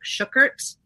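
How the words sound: The name has a German pronunciation.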